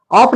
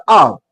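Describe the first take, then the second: First: "ऑफ" said fully as spelt; wrong pronunciation. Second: "ऑफ" reduced, with a falling tone; natural spoken form. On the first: Teacher shows what does not come out, "ऑफ" said as spelt. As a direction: say "ऑफ" with its final consonant. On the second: Teacher models how it comes out, "ऑफ" reduced and falling. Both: Shown as a demonstration. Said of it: "ऑफ नहीं निकलता".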